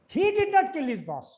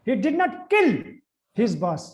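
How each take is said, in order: First: The stress is on "he". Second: The stress is on "kill".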